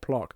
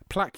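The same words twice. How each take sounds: First: Plaque is said with a posher, unusual pronunciation. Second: Plaque is said with an ordinary, everyday pronunciation. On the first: This is how the dentist says it. The speaker calls it wrong. "the posh way of saying it" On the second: This is the familiar way everyone says it. The speaker calls it right. "Plaque, yes"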